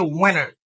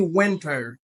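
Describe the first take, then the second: First: "winter" with the T dropped, "WIN-er"; American pronunciation. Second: "winter" with the T fully sounded, "WIN-ter"; original pronunciation. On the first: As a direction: say "winter" almost like "winner". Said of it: "ou tande Ameriken". (di "winter" san T, tankou Ameriken) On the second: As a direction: keep a clear T after the N in "winter". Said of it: "pwononsiyasyon orijinal li". (di "winter" ak T a, jan orijinal la) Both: Shown as a demonstration.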